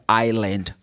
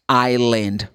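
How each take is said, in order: The two takes are said the same way.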